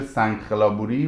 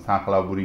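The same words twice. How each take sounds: First: The 'kh' is a harsh, rasping throat sound. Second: The 'kh' sounds halfway between k and kh. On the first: This is how the name is written. "نوشته میشه" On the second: This is how locals pronounce the name. "یه چیزی بین که و خ تلفظ میکنن"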